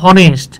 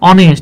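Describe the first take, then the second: First: The word starts with an audible h sound. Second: The word starts directly with the vowel. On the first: The speaker calls it wrong. "এটা উচ্চারণ হওয়ার কথা ছিল হনেস্ট" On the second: The speaker calls it right. "কিন্তু উচ্চারণ হয়েছে কি ভাই অনেস্ট"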